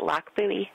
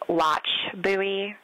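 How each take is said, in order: First: The ch is said as a plain k. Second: The ch is said as a throaty sound. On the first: The speaker calls it right. "You just pronounce it" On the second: The speaker calls it wrong. "pronouncing the C H"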